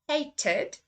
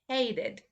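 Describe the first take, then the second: First: It is said in a British accent. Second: It is said in an American accent. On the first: "first say the U K pronunciation" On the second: "then I will say the U S"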